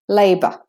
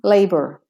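First: It is said in a British accent. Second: It is said in an American accent. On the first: "if you're doing the Australian and British" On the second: "or American"

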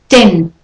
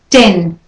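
No difference in how they are said.

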